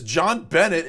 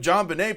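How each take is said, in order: First: The final T of the surname is pronounced. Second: The final T of the surname is silent. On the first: The speaker calls it wrong. "She repeatedly says John Bennett ... she's pronouncing the T" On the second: The speaker calls it right. "instead of John Benet, pronounced Benet"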